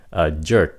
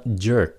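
First: "a jerk" lower, breath stopped at the end; final K cut off. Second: "jerk" with an audible K after it; careful "jerk", release the last K; released final K. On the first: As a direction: stop the air on the K of "a jerk". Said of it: "nói nhanh thì các bạn chỉ cần ngắt cái hơi". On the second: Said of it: "nói chậm thì các bạn phát âm khờ phía sau". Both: Shown as a demonstration.

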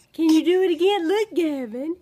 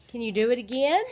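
First: High, louder eager coaxing. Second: Said in the usual way. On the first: Real, not acted. Coaxing baby to repeat.

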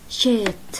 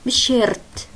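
First: شيت with a long schwa, r silent; shirt without r. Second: شيرت with the r sounded, the wrong way; wrong shirt with r. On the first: Teacher correcting shirt, r silent. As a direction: say شيت dropping the r. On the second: Teacher showing the wrong shirt, r sounded. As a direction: say شيرت rolling the r. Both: Shown as a demonstration. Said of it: "من دون ار".

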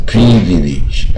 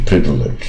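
First: "privilege" as "pree-vee-leej", every vowel full; "privilege" wrongly drawn out with long ee; mispronounced. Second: "privilege" as "PRIV-lij"; "privilege" with short i and reduced middle; middle vowel glided over. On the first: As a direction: stretch "privilege" into tense ee syllables. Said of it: "不要念成privilege". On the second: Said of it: "就是耳划过去". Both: Shown as a demonstration.

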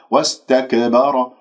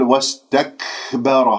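First: "واستكبر" with ك popped into a tiny extra vowel; "واستكبر" with an echoing release after ك, no breath; wrongly bounced kaf. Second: "واستكبر" with a big puff of breath after ك; "واستكبر" with a long hissing k; exaggerated hams. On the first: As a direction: show the error: qalqalah bounce on the ك of "واستكبر". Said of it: "أقلقلها". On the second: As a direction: show the error: overblown airy release on the ك of "واستكبر". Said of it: "هذا مبالغة في الهمس". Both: Shown as a demonstration.

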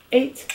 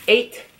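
First: "Eight" said the American way, crisp eɪt; plain American "Eight"; American accent. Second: "Eight" said the Jamaican way, higher; light Jamaican accent on "Eight". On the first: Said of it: "and eight in the American accent". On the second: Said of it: "Eight in the Jamaican accent". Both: Shown as a demonstration.

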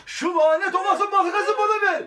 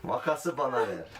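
First: High, loud melodramatic villain voice; hammy villain shout. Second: Said in the usual way. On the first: Acted. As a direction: demand it like a cartoon villain. Repeated line in a villain voice. (abartılı kötü adam sesi) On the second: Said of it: "repeated in a marked take".

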